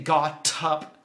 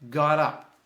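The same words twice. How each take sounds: First: A hard T, with the two words kept separate. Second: A soft D sound, with the words linked together. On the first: The speaker calls it wrong. "So don't say got up" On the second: The speaker calls it right. "The T sounds like a D, and it links together"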